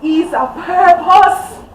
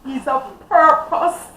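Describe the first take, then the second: First: "He's a purpose" louder, higher and slower, rising; impassioned repeat. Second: "He's a purpose" said firmly and slowly; emphatic declaration. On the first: Mother repeating her son's worth, louder and impassioned. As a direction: cry it out with full conviction. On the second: Mother insisting on her son's worth, firmly. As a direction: lean on "purpose" with conviction. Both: Real, not acted.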